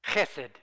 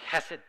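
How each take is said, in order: First: Chesed said with a throaty h, khe-sed; Hebrew pronunciation. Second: Chesed once more with the throaty h, khe-sed; Hebrew pronunciation. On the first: Preacher teaching the congregation a Hebrew word, carefully pronounced. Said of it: "Hebrew word that I'm gonna butcher". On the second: Preacher leading the congregation to repeat chesed, throaty h. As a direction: lead the room in saying chesed the Hebrew way. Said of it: "you wanna say that with me?". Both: Shown as a demonstration.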